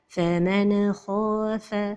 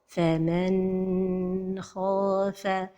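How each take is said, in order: First: The n sound is released with a bounce. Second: The n sound is held too long. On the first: "La première erreur, c'est al-qalqalah de an-nun as-sakina" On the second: "c'est de prolonger son temps"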